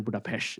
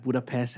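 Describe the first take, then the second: First: Budapest ending in a SH sound; Hungarian-style pronunciation. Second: Said in the usual way. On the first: Shown as a demonstration. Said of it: "that pronunciation". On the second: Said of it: "as that pronunciation".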